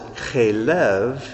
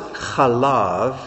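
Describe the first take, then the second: First: The word is said with 'e' vowels. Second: The word is said with 'a' vowels. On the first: It means fat. "If you pronounce it chelev, it means fat" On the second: It means milk. "If you pronounce it chalav, it means milk"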